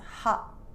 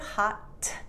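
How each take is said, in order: First: The final T is stopped in the throat. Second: The final T is fully released with the tongue. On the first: "My tongue doing nothing" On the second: "where my tongue is doing all the work"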